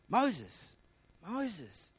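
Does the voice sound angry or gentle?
gentle. It sounds gentle and inviting.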